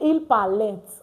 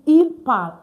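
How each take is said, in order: First: The verb ending is sounded out at the end. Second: The verb ending is silent at the end. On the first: The speaker calls it wrong. "we don't say il parlent" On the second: The speaker calls it right. "we just say il parle"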